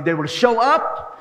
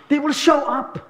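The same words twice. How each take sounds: First: "they will show up" drawn out slowly with a lift on "up"; slow down and let "they will show up" rise at the end; slow emphatic. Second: "They will show up" said higher, with the stress on "show"; raised repeat. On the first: Pastor assuring the congregation, slow and emphatic. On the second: Pastor repeating his promise to the congregation, pitched up. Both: Shown as a demonstration. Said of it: "they will show up repeated".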